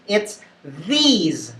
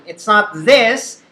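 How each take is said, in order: First: "these" with a long ee and a buzzing z; correct word. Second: "this" with a short clipped i; wrong word. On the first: Teacher models "these" with a long ee. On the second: Teacher shows the wrong form "this" with a short i. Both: Shown as a demonstration.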